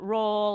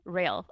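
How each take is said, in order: First: The name is said to rhyme with 'roll'. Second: The name is said to rhyme with 'rail'. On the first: The speaker calls it wrong. "They call it roll" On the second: The speaker calls it right. "as if it was rail, like railroad"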